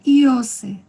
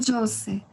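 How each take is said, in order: First: The word starts with an ee vowel sound. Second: The word starts with a j consonant sound. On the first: The speaker calls it right. "isto seria Iose" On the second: The speaker calls it wrong. "e não Jose"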